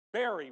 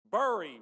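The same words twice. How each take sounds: First: "Bury" said as "berry"; pronounced like berry. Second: "Bury" said loudly as "burr-ee"; pronounced to rhyme with furry. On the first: Preacher polling congregation by show of hands, "Bury" as berry. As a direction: say "Bury" to rhyme with cherry. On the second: Preacher polling congregation by show of hands, "Bury" as burr-ee. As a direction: hit "Bury" with the vowel of fur. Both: Shown as a demonstration. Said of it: "Is it bury or is it bury?".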